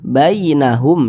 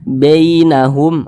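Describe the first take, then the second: First: The first vowel is a soft, clear ai sound. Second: The first vowel leans toward an e sound. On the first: The speaker calls it right. "dilunakkan, mudah gitu" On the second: The speaker calls it wrong. "dicondong ke e ... itu salah"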